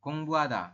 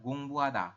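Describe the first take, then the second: First: The h sound is faint. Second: The same.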